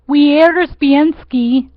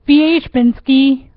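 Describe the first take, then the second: First: The name is said with an anglicized pronunciation. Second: The name is said with a native Polish pronunciation. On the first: "bastardize it here or pronounce it here, you would say" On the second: "but in Poland you would say"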